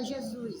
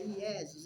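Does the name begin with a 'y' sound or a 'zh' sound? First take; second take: zh sound; y sound. First: The name begins with a 'zh' sound. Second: The name begins with a 'y' sound. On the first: This is the common form people use today. The speaker calls it wrong. "as pessoas não falam Iesus, fala Jesus, é um erro" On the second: This is the original Latin form of the name. The speaker calls it right. "no latim é Iesus"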